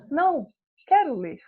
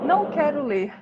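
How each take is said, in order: First: There is a pause after não. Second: It is said without a pause after não.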